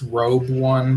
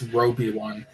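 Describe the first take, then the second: First: The first part is said as one syllable. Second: The first part is said as two syllables. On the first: The speaker calls it wrong. "I thought it was Robe One" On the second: The speaker calls it right. "this fellow pronounced it as Roby One"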